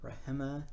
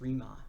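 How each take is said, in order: First: The H is sounded between the vowels. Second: The H is silent between the vowels.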